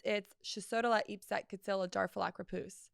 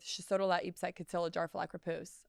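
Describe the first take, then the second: First: Shisodola Ipset Kitsila Darfalak Rapus as backwards gibberish; "Shisodola Ipset Kitsila Darfalak Rapus" spoken as a reversed word; backwards speech. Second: "Shisodola Ipset Kitsila Darfalak Rapus" recited as a reversed word; "Shisodola Ipset Kitsila Darfalak Rapus" as backwards gibberish; backwards speech. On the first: Shown as a demonstration. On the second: Retold or imitated. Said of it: "I just said Supercalifragilisticexpialidocious backwards".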